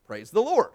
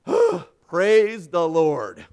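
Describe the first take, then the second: First: Raised, louder start command; higher, firm cue to a horse; rider's command. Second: Big exhale, then loud slow words; relieved, very drawn-out exclamation; huge relief. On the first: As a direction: call it out to set the horse off. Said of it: "mounted him, and said". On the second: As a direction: sigh it out after a narrow escape. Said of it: "brushed the sweat from his brow". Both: A narrator's reading.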